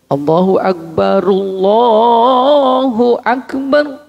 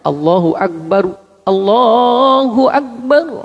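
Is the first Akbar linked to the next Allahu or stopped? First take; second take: linked; stopped. First: The first Akbar ends in -ru, linked onward. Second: The first Akbar ends in a stopped r. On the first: "Kalau dibaca wasol, roknya tetap hidup dibaca ru" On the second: "Kalau dibaca mati"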